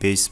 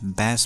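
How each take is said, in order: First: The vowel sounds like in 'base'. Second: The vowel sounds like in 'cat'. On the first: The low-pitched part of music. "म्युजिकको बेस" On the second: The name of a fish. "एउटा फिसको नाम"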